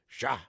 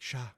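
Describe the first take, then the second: First: The word is said sharply and sternly. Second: The word is said lightly and mildly. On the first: Be quiet immediately. "If you put a little stink on it" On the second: It is a gentle hush. "if you're just like shah, that's like shh"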